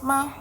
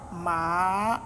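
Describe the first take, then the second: First: The syllable is short and light, without tone. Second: The pitch dips low then rises. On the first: "Then the neutral is just ma" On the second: "falling rising tone"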